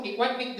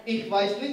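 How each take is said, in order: First: Mangled German in a mock Vietnamese accent; bad Vietnamese-accented German. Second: Said in the usual way. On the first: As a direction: imitate Vietnamese-accented German, consonants garbled. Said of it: "jelek banget ya". (bahasa Jerman jelek berlogat Vietnam) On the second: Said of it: "ngomong Jerman jelek".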